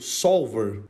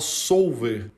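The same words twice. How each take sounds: First: The word is said with English pronunciation. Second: The word is said with Portuguese pronunciation. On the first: The speaker calls it right. "Em inglês a gente fala desse jeito mesmo" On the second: The speaker calls it wrong. "a gente usa a entonação em português"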